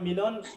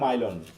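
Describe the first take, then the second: First: The name begins with a 'mee' sound. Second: The name begins with a 'my' sound. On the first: This is how the owner says the name. "আমার নাম মিলন" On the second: This is how foreigners read the spelling. "বিদেশিরা বলে মাইলন"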